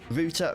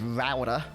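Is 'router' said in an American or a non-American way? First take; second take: non-American; American. First: The word is said in a non-American way. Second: The word is said in an American way.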